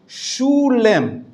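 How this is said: It is spoken with an Ashkenazi Hebrew pronunciation.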